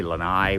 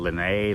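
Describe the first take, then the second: First: "Lanai" said lə-NYE, ending like "eye"; corrected pronunciation. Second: "Lanai" said lə-NAY, ending like "day"; unsure pronunciation. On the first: Correcting himself to viewers, saying "Lanai" as lə-NYE. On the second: Showing viewers the pool area, saying "Lanai" as lə-NAY. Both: Real, not acted. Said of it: "whatever it's called".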